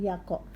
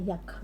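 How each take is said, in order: First: A vowel is added after the k sound. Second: The syllable ends on a bare k sound. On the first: The speaker calls it wrong. "bukan yako" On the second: The speaker calls it right. "jadi dibacanya yak"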